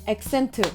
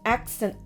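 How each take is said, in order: First: The stress is on the second syllable. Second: The stress is on the first syllable. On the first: The speaker calls it wrong. "우리는 accent 이렇게 읽잖아요" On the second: The speaker calls it right. "영어에서는 accent 발음이 accent A에 있는 거예요"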